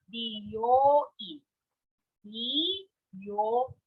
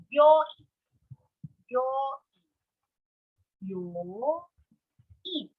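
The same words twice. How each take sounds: First: "byoin" slowly as bi, yo, in; slow, separate syllables. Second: "byoin" slowly, byo kept as one syllable; slow, contracted. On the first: Teacher saying salon slowly for learners, "byoin" in separate syllables. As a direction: spell out "byoin" syllable by syllable, bi kept apart from yo. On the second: Teacher saying hospital slowly for learners, "byoin" contracted. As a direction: stretch "byoin" as byo, in without splitting byo. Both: Shown as a demonstration. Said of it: "I'll say it slowly for you".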